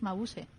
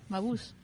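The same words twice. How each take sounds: First: The name is pronounced the German way. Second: The name is pronounced the English way. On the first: The speaker calls it right. "el original, que es alemán" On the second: The speaker calls it wrong. "tú lo has pronunciado a la inglesa"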